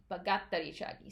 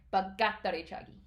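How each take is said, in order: First: 바깥다리 차기 with a tense, held 깥 sound; fast 바깥다리 차기, throat tight on the 깥; teacher demo of 바깥다리 차기; tensed Korean consonant. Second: 바깥다리 차기 with a tight, tensed 깥; quick 바깥다리 차기, throat held on 깥; teacher demo of 바깥다리 차기; tensed Korean consonant. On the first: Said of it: "a tensed or stressed, uh, letter". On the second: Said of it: "You put a little bit more stress into it". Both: Shown as a demonstration.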